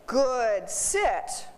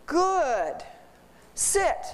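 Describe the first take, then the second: First: Said in the usual way. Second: "sit" sprong omhoog; Good, sit with a leap up on sit. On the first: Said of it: "if it's sitting and I say". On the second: Shown as a demonstration. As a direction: hear "Good, sit" as one rising call. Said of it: "What they're hearing is".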